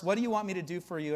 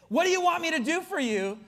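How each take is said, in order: First: Said in the usual way. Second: High, exasperated echo of the question; baffled, pitched-up repetition; incredulous quoting. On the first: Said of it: "I would read that, uh, verse". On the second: Acted. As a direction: throw the question back in disbelief. Mocking the puzzling question.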